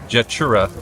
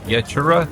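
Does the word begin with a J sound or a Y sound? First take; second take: J sound; Y sound. First: The word begins with a J sound. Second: The word begins with a Y sound. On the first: The speaker calls it wrong. "It looks like Jetura" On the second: The speaker calls it right. "but it's Yetura"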